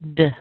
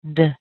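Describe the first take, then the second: First: The vowel is squeezed into a tiny weak sound. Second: The same.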